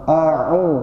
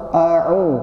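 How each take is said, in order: No difference in how they are said.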